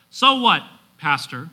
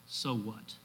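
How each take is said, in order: First: Punchy, raised-voice challenge from the pews; challenging listener. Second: Low, soft "So what?"; hushed, falling rhetorical question; musing question. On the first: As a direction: throw it back at the pastor as a challenge. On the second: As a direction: ask it quietly, almost to yourself. Preacher poses the application question. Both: Acted.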